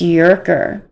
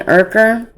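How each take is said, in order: First: The name begins with a y sound. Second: The name begins with a plain vowel sound. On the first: The speaker calls it wrong. "it's Yerker" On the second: The speaker calls it right. "saying it is pronounced Urker"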